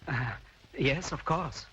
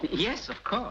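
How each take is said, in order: First: It is said hesitantly, without conviction. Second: It is said firmly, with conviction.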